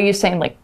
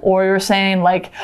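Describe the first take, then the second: First: Said in the usual way. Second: Alarmed gasp. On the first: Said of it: "So if you're warning somebody". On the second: Shown as a demonstration. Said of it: "if you're warning somebody".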